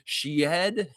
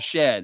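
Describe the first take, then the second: First: The name has a different vowel from shed. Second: The name sounds like the word shed. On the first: The speaker calls it wrong. "people are going to say his last name" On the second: The speaker calls it right. "It just says Jamal and then Shed, the word Shed"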